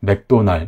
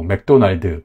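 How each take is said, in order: First: It ends without an added vowel after the final consonant. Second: It ends with an added vowel after the final d. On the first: The speaker calls it right. "삼 음절 단어입니다" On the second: The speaker calls it wrong. "맥도날드 콩글리시 발음에서 이 드가 있잖아요"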